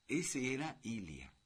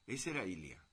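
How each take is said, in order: First: "Ese" stretched and lifted, then a falling close; stress on ESE. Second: Said in the usual way. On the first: Shown as a demonstration. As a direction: lean on "Ese" with admiration in the stretch.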